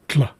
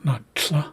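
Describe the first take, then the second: First: A d and an l are blended together. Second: The sound is not a blended d-l sound. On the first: The speaker calls it right. "I'm making a kind of a d and a l sound together" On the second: The speaker calls it wrong. "So it's not a tl, not tl"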